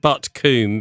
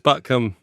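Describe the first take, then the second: First: The last syllable has a long 'oo' vowel. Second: The last syllable has a short 'uh' vowel. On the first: The speaker calls it wrong. "I'd always said Butcombe, being, you know, nicely brought up" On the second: The speaker calls it right. "coombe is produced as cum. So it's Butcombe"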